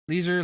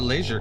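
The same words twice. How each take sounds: First: It is said with an American accent. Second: It is said in the speaker's non-American accent.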